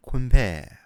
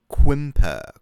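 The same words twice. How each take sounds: First: Quimper ending on a French "pé" sound; mock French Quimper. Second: Quimper said English style with "per", loud; Quimper, ending in an English "er". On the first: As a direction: Quimper with an E at the end. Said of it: "so it's an E". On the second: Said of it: "it's an E sound". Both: Shown as a demonstration.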